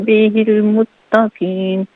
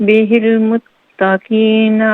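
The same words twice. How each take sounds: The two takes are said the same way.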